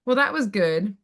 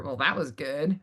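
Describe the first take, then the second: First: Plain compliment with a slight lift; sincere praise. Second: Lower, softer backhanded compliment; doubtful praise. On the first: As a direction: say it as straightforward approval. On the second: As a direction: undercut the compliment, pitched down low. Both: Shown as a demonstration. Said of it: "did they say it like".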